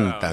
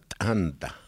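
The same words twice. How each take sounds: First: The first consonant is plain, without aspiration. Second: The first consonant is aspirated with a breath.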